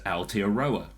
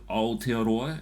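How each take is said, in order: First: The word uses English vowels and an English R. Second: The word uses Maori vowels and a rolled R. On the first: The speaker calls it wrong. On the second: The speaker calls it right.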